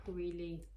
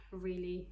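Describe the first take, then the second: No difference in how they are said.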